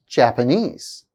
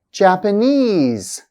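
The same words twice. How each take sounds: First: Said in the usual way. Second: "Japanese" slowly, last syllable high and held; stressed suffix. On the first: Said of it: "stress actually placed on the suffix". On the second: Shown as a demonstration. Teacher showing stress on the suffix, slow demo. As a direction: stretch the "ese" ending of "Japanese". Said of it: "primary stress actually placed on the suffix".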